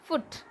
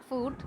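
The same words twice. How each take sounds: First: "foot" with a brief vowel as in book; clipped short vowel in "foot". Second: "food" with a long oo as in boot; long rounded vowel in "food"; wrong long vowel. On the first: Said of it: "short U sound". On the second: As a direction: stretch the oo in "food". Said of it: "foot, not food". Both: Shown as a demonstration.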